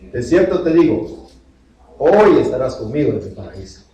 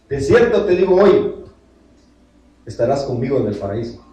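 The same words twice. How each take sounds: First: The pause comes right before the word hoy. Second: The pause comes right after the word hoy. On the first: Being in paradise happens today. The speaker calls it right. "¿Cómo dice la Biblia?" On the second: Today is when the saying happens. The speaker calls it wrong. "Le voy a decir algo con una tilde cambiada"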